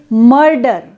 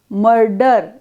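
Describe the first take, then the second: First: The vowel is said stressed and full. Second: The vowel is said unstressed and reduced. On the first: "Suppose we stress the vowel a, we will say" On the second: "we don't want to stress a sound, then we say"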